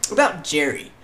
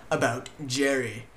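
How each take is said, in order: First: Loud, raised "about Jerry"; emphatic "about Jerry". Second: "About Jerry" slow and deliberate; slow repeat. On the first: Names the topic, then repeats it. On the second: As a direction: stretch out "About Jerry" at normal pitch. Repeats the topic slowly. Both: Real, not acted.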